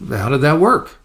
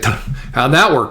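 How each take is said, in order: First: It is said in a plain, neutral tone. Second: It is said in a sarcastic tone. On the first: The question simply asks the person to reflect. The speaker calls it right. "So there's no judgment. There's no sarcasm" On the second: The question mocks and judges the person. The speaker calls it wrong. "That's sarcasm"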